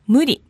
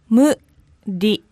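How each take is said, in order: First: It is said quickly at normal speed. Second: It is said slowly, syllable by syllable.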